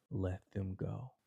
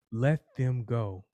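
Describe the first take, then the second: First: "Let them go" much softer, almost breathed; soft plea. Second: Slow, weighted "let them go" with a falling end; firm release. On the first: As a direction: let "Let them go" fall away gently and quietly. Jesus ends his plea to the judge. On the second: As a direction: lay down "let them go" slowly and firmly. Jesus asks the judge to free them. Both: Acted.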